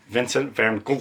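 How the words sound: The name is said with Dutch sounds.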